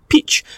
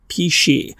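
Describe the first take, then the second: First: The surname sounds like the single syllable peach. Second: The surname has two syllables, pee-shay. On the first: The speaker calls it wrong. "I would have been calling it Tanya Peach" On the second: The speaker calls it right. "she very kindly told me how to correctly say hers"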